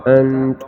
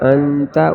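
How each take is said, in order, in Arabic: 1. تنتهي الكلمة بصوت التاء الساكنة. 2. تنتهي الكلمة بفتحة قصيرة.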